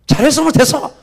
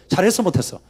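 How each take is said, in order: First: 높고 크게 외치는 군중 흉내; 성난 군중처럼 소리쳐 따지듯; 소리 지르기. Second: Said in the usual way. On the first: Acted. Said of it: "그럼 막 소리 지르고". (따져 묻는 군중의 고함)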